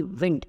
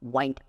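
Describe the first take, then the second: First: विंड with a short i, like win plus d; the correct take, विंड short and crisp; विंड rhyming with pinned; right way. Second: वाइंड said with a long ai, like the verb to wind; the common mistake, वाइंड rhyming with find; wrong way. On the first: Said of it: "W आर इन D". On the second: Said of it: "आमतौर पे लोग क्या बोलते हैं". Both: Shown as a demonstration.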